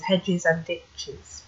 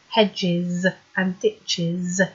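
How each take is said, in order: First: It is said fast, sounds run together. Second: It is said slowly, each sound clear. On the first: "But when it's full speed, it's ever so difficult to hear" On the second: "When you isolate certain words, you can hear how they should sound on their own"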